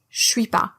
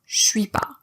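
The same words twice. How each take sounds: First: Je fuses into sh, leaving two syllables. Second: The same.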